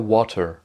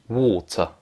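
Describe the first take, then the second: First: The vowel is an 'a' and the R is sounded. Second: The vowel is a long 'o' and the R is silent. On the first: The speaker calls it wrong. "ça ne dit pas water. Ça, c'est une mauvaise prononciation" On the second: The speaker calls it right. "Le A, c'est un O long. On dit water. Et le R est muet"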